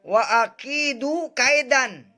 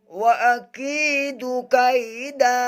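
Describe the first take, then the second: First: The last word ends with an 'n' sound. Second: The last word ends in a long vowel. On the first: The reading continues without stopping. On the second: The reader stops at this point.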